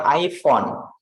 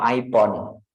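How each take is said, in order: First: "iPhone" with a clear f, "ai-fon"; correct f sound. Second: "iPhone" said slowly as "ai-pon", p for f; mistaken p sound. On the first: Teacher correcting how students say it, clear f sound. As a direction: say "iPhone" with f, never p. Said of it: "Harusnya bilang iPhone". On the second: Teacher showing what not to say, mistaken p for f. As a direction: turn the f of "iPhone" into a p. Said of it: "no iPhone". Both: Shown as a demonstration.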